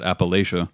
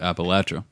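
First: It is said with the outsider's pronunciation. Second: It is said with the local regional pronunciation. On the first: The speaker is not from that area. The speaker calls it wrong. "every outsider that comes in pronounces it Appalachia" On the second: The speaker is from that area. The speaker calls it right. "the natives there have always and still do pronounce it Appalachia"

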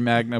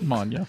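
First: The g is pronounced as a hard g. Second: The g is pronounced softly, like ny.

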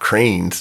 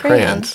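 First: The word is squeezed into one syllable. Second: The word is said with two syllables. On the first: The speaker calls it wrong. "Pete pronounces it cranes" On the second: The speaker calls it right. "You got it right this"

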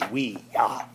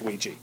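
First: The word is pronounced as wee-ya. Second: The word is pronounced the common everyday way. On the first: This is the original, technically intended pronunciation. "It's technically supposed to be pronounced "wee-ya."" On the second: This is how most people say it. "But everyone says Ouija"

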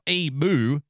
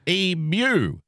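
First: The ending sounds like a cow's moo. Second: The ending does not sound like a cow's moo. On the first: The speaker calls it wrong. "not emu. It's not a cow" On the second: The speaker calls it right. "It's emu. You get it right"

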